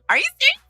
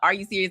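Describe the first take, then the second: First: It sounds happily excited. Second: It sounds annoyed and disbelieving.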